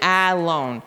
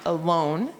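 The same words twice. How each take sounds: First: The first vowel is a full 'ah' sound. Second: The first vowel is a weak 'uh' sound. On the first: The speaker calls it wrong. "We wouldn't read it alone" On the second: The speaker calls it right. "The uh doesn't say ah"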